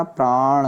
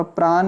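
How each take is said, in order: First: "प्राण" drawn out, ending on curled ṇ; retroflex "प्राण". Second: "प्राण" with a plain n; dental-n "प्राण". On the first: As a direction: lengthen प्राण onto a true ण. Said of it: "होता है". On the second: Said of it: "न होकर". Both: Shown as a demonstration.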